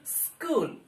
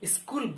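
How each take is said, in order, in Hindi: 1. शब्द सीधे s से शुरू होता है। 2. s से पहले एक अतिरिक्त स्वर ध्वनि आती है। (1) "ऐसा नहीं बोलना चाहिए" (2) "इधर छोटी ई या बड़ी ई का उच्चारण कर देते हैं, स्कूल बोल देते हैं"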